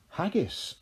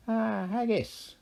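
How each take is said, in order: First: Said in the usual way. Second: High, sly Irish leprechaun king. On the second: A narrator's reading. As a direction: grin through it like a cunning leprechaun. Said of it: "he said".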